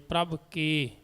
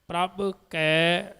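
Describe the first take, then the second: First: The second word has an 'e' vowel. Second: The second word has an 'ai' vowel. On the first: The speaker calls it wrong. "ਇਹਦਾ ਉਚਾਰਨ ਇਸ ਤਰ੍ਹਾਂ ਕਰ ਦਿੰਦੇ ਨੇ" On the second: The speaker calls it right. "ਜਿੱਥੇ ਦੋ ਨੇ ਉੱਥੇ ਐ ਦੀ ਆਵਾਜ਼ ਆਉਂਦੀ ਹੈ"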